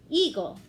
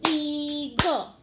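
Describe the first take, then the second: First: Said in the usual way. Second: "Eagle" loud, in two drawn-out beats; clapped-out syllables. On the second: Shown as a demonstration. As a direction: chant "Eagle" as EE-gul, a loud beat on each. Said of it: "Let's clap it out".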